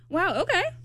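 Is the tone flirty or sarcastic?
sarcastic. It is said in a sarcastic tone.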